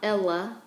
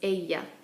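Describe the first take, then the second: First: The double L sounds like an English L. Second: The double L sounds like an English Y. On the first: The speaker calls it wrong. "so it's not Ella" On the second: The speaker calls it right. "it's ella. So it's more of a Y sound"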